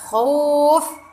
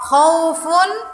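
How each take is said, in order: First: The word stops short without the final ending. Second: The word ends with a final 'un' sound.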